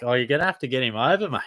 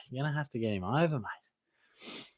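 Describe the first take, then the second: First: Said in the usual way. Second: Softer, quick repeat trailing into a whispered mate; soft throwaway echo. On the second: Shown as a demonstration. Streamer repeats his reply to a viewer, softly, under his breath. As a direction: toss it off again under your breath.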